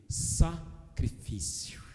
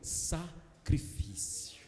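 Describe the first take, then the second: First: It is said plainly, without smiling. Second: It is said while smiling.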